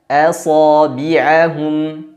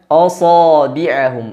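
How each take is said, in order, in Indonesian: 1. Hamzah diucapkan tipis dan ringan. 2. Hamzah diucapkan tebal, gelap seperti sad. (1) "dibaca dengan tipis" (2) "tidak boleh dibaca asabi'ahum"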